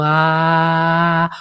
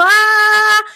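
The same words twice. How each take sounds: First: A lower, open "Ah" sung from the chest; heart-centred ah. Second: A sudden high, loud "Ah" pushed up from the throat; shrill forced ah. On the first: Voice coach showing Laura's true heart A sound. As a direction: let a low, grounded "Ah" settle in the heart. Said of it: "una A realmente de corazón". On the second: Voice coach showing a useless, strained A sound. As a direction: blurt a tight, high "Ah". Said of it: "esa A no sirve para nada". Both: Shown as a demonstration.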